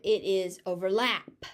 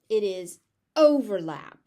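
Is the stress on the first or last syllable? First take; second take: last; first. First: The stress is on the last syllable. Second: The stress is on the first syllable. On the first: It is used as a verb. "As a verb" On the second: It is used as a noun. "As a noun"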